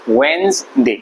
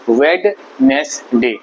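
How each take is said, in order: First: It is said with two syllables. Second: It is said with three syllables. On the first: The speaker calls it right. "इसको बोलते हैं वेंसडे" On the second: The speaker calls it wrong. "इसको वेडनेसडे नहीं बोलते हैं"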